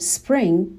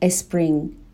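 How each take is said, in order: First: The word begins directly with the s sound. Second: An extra vowel comes before the s sound. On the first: The speaker calls it right. "به جای اینکه بگیم spring" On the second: The speaker calls it wrong. "اون ا اول رو میذارن"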